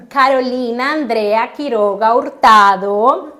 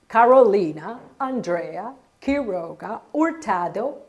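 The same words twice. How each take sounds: First: "Carolina Andrea Quiroga Hurtado" with tapped Spanish r and pure vowels; "Carolina Andrea Quiroga Hurtado" pronounced natively in Spanish; Spanish name. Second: "Carolina Andrea Quiroga Hurtado" with English r sounds, "Quiroga" as "kih-ROH-gah"; "Carolina Andrea Quiroga Hurtado" in a Tennessee English voice; anglicized name. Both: Retold or imitated. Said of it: "her accent".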